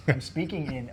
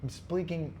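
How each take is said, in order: First: Said in the usual way. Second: Whispered I'm speaking; breathy whisper, no voice. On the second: Shown as a demonstration. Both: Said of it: "restarts in whisper then full voice".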